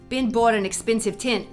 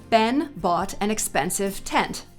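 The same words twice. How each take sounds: First: It is spoken in a Brooklyn accent. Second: It is spoken in a general American accent. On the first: "In a classic sort of Brooklyn accent" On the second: "In a more general American accent like mine"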